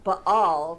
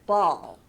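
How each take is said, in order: First: An extra vowel follows the B sound. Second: The B runs straight into the vowel. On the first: The speaker calls it wrong. "we don't say ... ba-all" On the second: The speaker calls it right. "we say bat ball"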